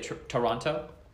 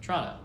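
First: All three syllables and both t sounds are pronounced. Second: It is squeezed into two syllables, like Tronno. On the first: This is how outsiders say the name. The speaker calls it wrong. "when people say Toronto" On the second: This is how people who live there say it. The speaker calls it right. "It's spelled T-R-O-N-O. That's how people that live there pronounce it"

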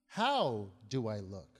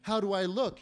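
First: The stress falls on the word how. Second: The stress falls on the word look. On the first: The speaker asks about their way of looking at something. "What's the process in what I'm looking at?" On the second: The speaker asks about their appearance. "And when you ask yourself that question in the morning"

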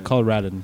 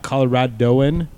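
First: The word has four syllables, without the 'oh'. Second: The word has five syllables, with an extra 'oh'. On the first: The speaker calls it right. "said that right" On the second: The speaker calls it wrong. "Not Coloradoan"

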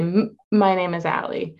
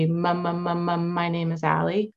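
First: The first sound is stuck, then released. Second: The first sound is repeated several times.

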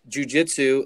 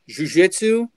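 First: It is said in an American accent. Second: It is said in a Brazilian accent.

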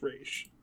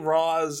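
First: The name sounds like 'Raish', ending in sh. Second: The name sounds like 'Roz', ending in s. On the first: This is the proper pronunciation. "the actual proper pronunciation is Raish" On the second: This is how the film says it. "they say Roz in Batman Begins"

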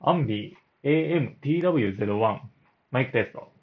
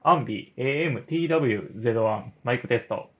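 The two takes are said the same way.

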